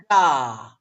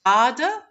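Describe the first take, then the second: First: "gar" as a loud, long final beat; second-syllable stress. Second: "garda" with a loud first syllable; first-syllable stress. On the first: Teacher offering the other option, stress on the end. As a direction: stretch and punch "gar". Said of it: "is it". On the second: Teacher quizzing on the left word, stress first. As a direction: hit "gar", let "da" fall away. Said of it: "The one on the left". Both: Shown as a demonstration.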